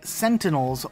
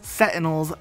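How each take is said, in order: First: An N sound comes right before the T. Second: There is no N sound before the T. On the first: The speaker calls it right. "with an N before the T sound" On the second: The speaker calls it wrong. "A lot of people call these things Sentinels"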